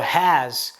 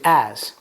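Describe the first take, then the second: First: The word starts with an h sound. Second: The word starts without an h sound. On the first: The speaker calls it right. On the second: The speaker calls it wrong.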